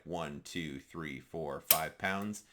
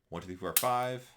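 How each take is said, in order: First: The counting is slow. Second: The counting is quick.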